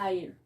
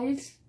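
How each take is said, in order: First: The S is silent in the word. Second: The S sound is pronounced in the word. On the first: The speaker calls it right. "sino isle" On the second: The speaker calls it wrong. "no vamos a decir isles"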